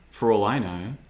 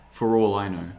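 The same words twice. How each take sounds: The two takes are said the same way.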